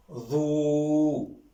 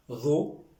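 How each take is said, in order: First: "ro" with the o held long and level; long vowel. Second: "ro" with a brief o, rising; short vowel. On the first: Teacher repeating the reading, "ro" drawn out. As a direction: sustain the o of "ro". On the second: Teacher repeating the reading, "ro" kept short. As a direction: say "ro" short, lifting at the end. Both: Shown as a demonstration. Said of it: "Je répète la, la lecture".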